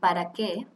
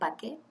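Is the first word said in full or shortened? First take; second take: full; shortened. First: The first word is said in full, two syllables. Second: The first word is cut to one syllable. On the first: "como decir, ¿para qué?" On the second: "Nosotros decimos ¿pa' qué?"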